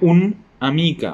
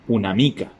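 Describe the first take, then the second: First: The article and noun are said as separate words. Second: The article and noun are joined as one word. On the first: The speaker calls it wrong. "No digo un amica" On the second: The speaker calls it right. "como que fuera una sola palabra"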